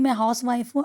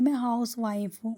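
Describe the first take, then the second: First: It is said confidently and cheerfully. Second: It is said softly and dejectedly. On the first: Being a housewife is something to be proud of. The speaker calls it right. "Confident के साथ एकदम अच्छे से खुशी दिली से कहिए" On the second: Being a housewife feels like something shameful. The speaker calls it wrong. "धीमी आवाज़ में, मुरझाया हुआ"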